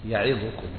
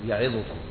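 The two takes are said the same way.

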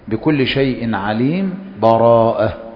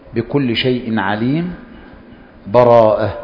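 First: There is a brief pause without a breath. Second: There is a stop with a breath between words. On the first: The reciter briefly halts without stopping fully. "السكت ... ومع السكت لا تأخذ نفسا" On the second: The reciter fully stops between the chapters. "الوقف ... فمع الوقف تأخذ نفسا"

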